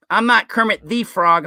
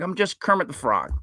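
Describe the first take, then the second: First: "the" pronounced "thee", with emphasis; stress on "the". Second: Said in the usual way. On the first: Acted. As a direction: lean on "the" as a long "thee". Contrasts two ways of saying "the.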